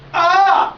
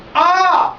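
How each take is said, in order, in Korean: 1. 배에 긴장을 주고 목소리를 밀어내고 있습니다. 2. 배에 긴장을 주고 목소리를 밀어내고 있습니다.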